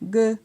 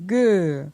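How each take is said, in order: First: The syllable is said on a mid tone. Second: The syllable is said on a falling tone. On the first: "Pour un ton moyen" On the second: "pour un ton descendant"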